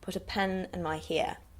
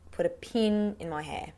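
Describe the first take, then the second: First: It is said in a New Zealand accent. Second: It is said in an Australian accent.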